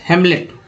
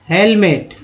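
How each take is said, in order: First: The M sound comes before the L. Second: The L sound comes before the M. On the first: The speaker calls it wrong. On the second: The speaker calls it right.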